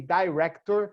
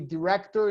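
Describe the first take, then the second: First: It is said with a British pronunciation. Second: It is said with an American pronunciation. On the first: "In England, they say" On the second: "In the United States, they say"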